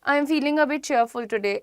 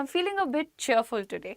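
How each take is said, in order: First: It is said flatly, like a robot. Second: It is said with cheerful feeling.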